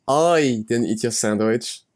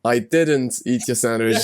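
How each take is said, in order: First: "I" drawn out and emphasized at the start; stress on I. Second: "didn't" stretched and emphasized; slow denial, lean hard on "didn't"; stress on DIDN'T. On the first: Giving own sandwich example, heavy stress on "I". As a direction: lean slowly on the opening "I". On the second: Giving own sandwich example, heavy stress on "didn't". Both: Shown as a demonstration. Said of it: "I've got the same one".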